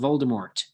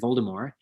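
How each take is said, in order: First: The final T is pronounced. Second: The final T is silent. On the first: "she herself has been caught on tape saying Voldemort" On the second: "the T is not pronounced, and that it should be said as Voldemort"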